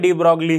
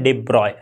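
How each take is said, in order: First: The name ends in 'broglee' with a 'g' sound. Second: The name ends in 'broy' with no 'g' sound. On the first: This is how the name is commonly said locally. "Normally हम इंडिया में de ब्रॉगली ही बोल देते हैं" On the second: This is the original pronunciation of the name. "इसे हम इस तरह से प्रोनाउंस करते हैं"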